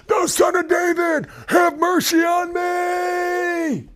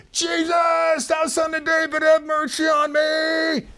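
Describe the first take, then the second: First: Very high, slow, straining shout; crying the more. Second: High, far-carrying desperate cry. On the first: Beggar shouting over a hushing crowd, desperate straining cry. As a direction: cry out even harder, pleading. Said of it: "he cried the more a great deal". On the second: Blind beggar crying out to Jesus, desperate high shout. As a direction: plead at the top of your voice. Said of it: "he began to cry out and say". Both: Acted.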